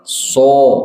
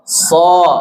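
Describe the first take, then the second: First: The vowel is a rounded o with pursed lips. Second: The vowel is an open a with mouth wide. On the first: The speaker calls it wrong. "Seseorang ngaosna kieu ya ... ketika saya baca dengan monyong" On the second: The speaker calls it right. "pasti rumus mangap"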